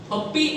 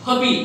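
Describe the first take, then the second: First: पप्पी with a held double p; पप्पी said with a long pp; wrong double p. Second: पपी with one short p; पपी, one p only; single p. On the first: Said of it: "सही pronunciation इसका है ही नहीं". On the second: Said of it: "एक आपने हटा दिया". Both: Shown as a demonstration.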